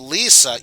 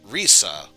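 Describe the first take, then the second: First: The name begins with an L sound. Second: The name begins with an R sound. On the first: "instead of Lisa" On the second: "you might hear Risa instead"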